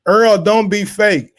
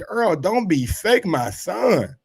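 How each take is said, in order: First: Full stop and falling tune on "fake."; slow, firm "Earl, don't be fake." then stop; corrected phrasing. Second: "fake, my son" run together, rising on "fake"; misread phrasing. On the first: Rereading Virgil's post to viewers, ending firmly on fake. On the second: Misreading Virgil's post to viewers, phrase run together. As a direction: read "Earl, don't be fake, my son" as one phrase. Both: Shown as a demonstration. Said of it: "I read that wrong".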